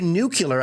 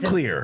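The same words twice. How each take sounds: First: It is said new-kyoo-ler, with an extra u sound. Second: It is said new-klee-er, without an extra u sound. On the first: The speaker calls it wrong. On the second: The speaker calls it right.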